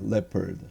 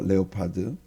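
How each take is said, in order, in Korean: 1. 두 음절로 발음합니다, lep-erd. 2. 세 음절로 발음합니다, leo-pard. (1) "레퍼드예요" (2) "사전에 레오파드가 아니고"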